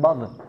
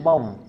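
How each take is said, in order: First: The final consonant ends with a bouncing echo. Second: The final consonant ends without any bouncing echo. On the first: The speaker calls it wrong. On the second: The speaker calls it right. "Jangan ada qalqalahnya"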